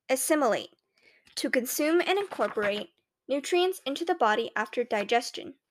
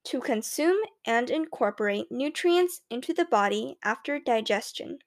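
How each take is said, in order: First: Pupil confidently reciting a definition; confident classroom answer, lightly acted. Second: Careful, drawn-out attempt at an American accent; deliberate American enunciation, trying to be understood; slow, American-sounding. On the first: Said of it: "I say confidently". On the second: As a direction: swirl each word slowly to sound more American. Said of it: "slowly swirling my tongue around the words to make them sound more American". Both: A narrator's reading.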